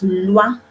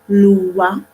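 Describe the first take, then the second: First: The sounds are joined into one single sound. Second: The sounds are split apart into separate parts. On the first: The speaker calls it right. "Make it one single sound" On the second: The speaker calls it wrong. "Don't separate the sound and say lwa"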